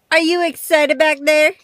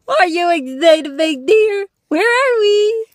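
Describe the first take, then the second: First: Loud, bright call to the dog; loud excited call. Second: Higher, louder squeaky dog voice. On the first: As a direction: call back to the back seat. Asking dog in back seat. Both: Real, not acted.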